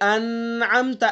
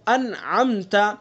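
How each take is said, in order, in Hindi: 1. "न" को नाक की गूंज के साथ खींचा जाता है। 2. "न" को जल्दी से, बिना नाक की गूंज के बोला जाता है। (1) "ऐसे नहीं पढ़ेंगे" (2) "बगैर गुन्ना के निकाल करके पढ़ेंगे"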